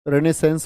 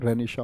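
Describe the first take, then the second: First: The word ends with an 's' sound. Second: The word ends with a 'sha' sound. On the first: The speaker calls it wrong. "रेनेसेंस बोल देते हैं बहुत सच्चे" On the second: The speaker calls it right. "उच्चारण सही क्या होता है? रेनिशा होता है"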